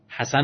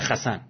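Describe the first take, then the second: First: The name starts with a soft breathy h. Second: The name starts with a rough throaty kh.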